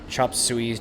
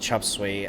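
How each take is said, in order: First: The second word has two syllables, 'soo-ee'. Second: The second word is one syllable, 'sway'.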